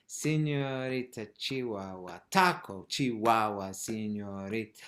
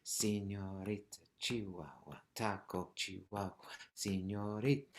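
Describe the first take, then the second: First: Accented "taco" jumping out of the chant; emphasis on the beat. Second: Soft, even chant with no punch on "taco"; level rhythmic count, "taco" no stronger than "Señorita"; democratic, equal stress. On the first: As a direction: hit "taco" hard, then ease down through "señorita". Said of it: "keep the emphasis on the foot". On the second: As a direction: give "Señorita", "Chihuahua" and "taco" the same weight. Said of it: "everything's kind of got the same value". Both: Shown as a demonstration.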